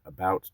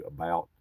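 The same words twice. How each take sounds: First: Said in the usual way. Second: "about" with its vowel shifted into the accent. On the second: Shown as a demonstration. Speaker showing how an accent changes a word, accented "about". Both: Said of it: "the about turns into about".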